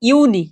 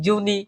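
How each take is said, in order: First: The word begins with a 'y' sound. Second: The word begins with a 'j' sound. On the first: The speaker calls it right. "জুন মাসকে বলা হয় ইউনি" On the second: The speaker calls it wrong. "এটাকে আমরা অনেক সময় বলা বলে ফেলি কি? ... সো এটা জুনিও না"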